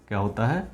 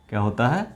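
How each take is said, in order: No difference in how they are said.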